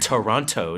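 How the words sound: The second T is clearly pronounced. This is how Americans say it. The speaker calls it wrong. "That's how Americans say Toronto. Uh, they say the second T"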